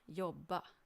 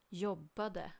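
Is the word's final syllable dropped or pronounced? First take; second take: dropped; pronounced. First: The final -de syllable is dropped. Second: The final -de syllable is pronounced. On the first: "in spoken Swedish we often don't bother with pronouncing the ending" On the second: "you always write the full form, and it's not wrong to pronounce it"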